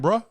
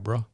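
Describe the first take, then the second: First: It sounds challenging and confrontational. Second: It sounds friendly and apologetic. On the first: The speaker is calling someone out for bumping into him. "You bump into me. I'm saying" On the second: The speaker is apologizing for bumping into someone. "I bump into you. My bad"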